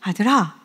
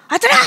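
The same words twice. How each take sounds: First: Loving call. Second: Sharp angry call to a son. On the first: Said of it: "사랑이 엄청 들어가서 부르거든요". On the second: Father calling his son in anger, sharp mock call. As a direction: snap the name out in anger. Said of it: "이건 화낼 때잖아요". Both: Shown as a demonstration.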